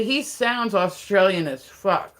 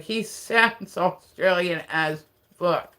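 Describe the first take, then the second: First: Said in the usual way. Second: "sounds Australian as fuck" stretched slowly with a laugh; drawn-out emphasis. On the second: Real, not acted. Stressing a friend's accent to listeners, drawn-out emphasis.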